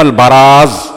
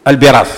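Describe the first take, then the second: First: "البراز" said as al-baraz; "البراز" with ba, the corrected reading; fatha on the ba. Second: "البراز" said as al-biraz; "البراز" with bi, the disputed reading; kasra on the ba. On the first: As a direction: say "البراز" with a short a after the b. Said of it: "مضبوطة بفتح الباء لا بكسرها". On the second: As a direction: say "البراز" with a short i after the b. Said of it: "فالخطابي عندنا يغلط". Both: Shown as a demonstration.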